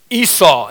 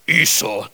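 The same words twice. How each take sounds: First: Said in the usual way. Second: Darth Vader. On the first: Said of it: "he finally gets it down right". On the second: Pretend. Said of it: "That sounds like Darth Vader".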